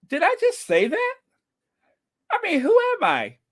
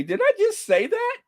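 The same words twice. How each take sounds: First: High squeaky mock shock; mock disbelief. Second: Mock disbelief. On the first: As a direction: act stunned by your own words. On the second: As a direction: squeak it as if stunned by your own words. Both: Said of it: "take another sip and see what happens".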